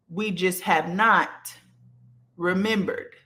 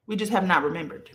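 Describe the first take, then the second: First: Slow, pausing after "not" before "remembered"; slow emphatic stress on NOT. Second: Said in the usual way. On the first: Real, not acted. Speaking to her viewers, she slows down and stresses "not". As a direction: lean hard on "not", let a beat hang, then "remembered".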